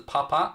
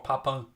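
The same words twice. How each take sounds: First: "Papin" said as pa-pa, open ending; Papin without final n. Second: "Papin" said as pa-pon, nasal ending; Papin with final n. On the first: Streamer explaining his doubt to Dave, "Papin" as pa-pa. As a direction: say "Papin" with no n at the end. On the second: Streamer giving Dave the other option, "Papin" as pa-pon. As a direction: finish "Papin" on an n sound. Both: Shown as a demonstration. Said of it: "didn't know if it was Papin or".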